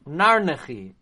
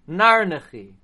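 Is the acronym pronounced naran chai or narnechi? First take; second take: narnechi; narnechi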